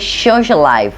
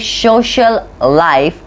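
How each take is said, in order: First: The two words are linked together. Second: The two words are said separately. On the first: The speaker calls it right. "we link these both words together" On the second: The speaker calls it wrong. "we don't say"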